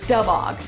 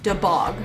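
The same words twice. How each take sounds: First: The stress is on the first syllable. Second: The stress is on the second syllable. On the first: The speaker calls it right. "you want to accent the ub" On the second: The speaker calls it wrong. "You don't want to accent the vowel"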